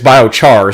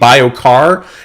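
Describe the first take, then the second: First: The second part begins with a ch sound. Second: The second part begins with a k sound. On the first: The speaker calls it right. "it's bio char" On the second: The speaker calls it wrong. "I was saying bio car"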